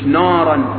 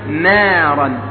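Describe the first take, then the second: First: The first syllable is heavy, with a thick vowel. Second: The first syllable is light, with a thin vowel. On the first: The speaker calls it wrong. "مش نارا كما يقول الآن الطلاب والمدرسون" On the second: The speaker calls it right. "وننتبه لكلمة نارا"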